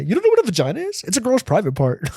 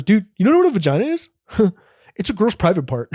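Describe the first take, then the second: First: Put-on very high, fast, squeaky kid voice; know-it-all kid. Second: Put-on high, fast kid voice; know-it-all kid. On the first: Boy repeats his lesson to classmates in a squeaky kid voice. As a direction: squeal it like a gleeful little boy. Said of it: "I still think about that to this day". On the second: Boy explaining vaginas to classmates in a squeaky kid voice. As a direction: squeak it out like a smug sixth grader. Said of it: "He goes".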